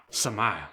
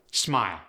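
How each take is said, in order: First: "Smile" as suh-mile; Khmer-style "Smile", split into suh-mile; inserted vowel. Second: Said in the usual way. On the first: Shown as a demonstration. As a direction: add a vowel between S and M in "Smile". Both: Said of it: "introduced in between two consonants".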